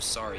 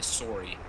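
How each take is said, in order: First: It is said in an American accent. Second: It is said in a Canadian accent. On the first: "instead of sorry" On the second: "the Canadians who say"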